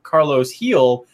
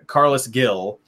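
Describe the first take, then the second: First: The surname begins with an H sound. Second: The surname begins with a hard G sound. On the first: Casual fans may not recognize the player. The speaker calls it right. "who is this Heel guy?" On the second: Casual fans recognize the player more easily. The speaker calls it wrong. "So I know it's wrong"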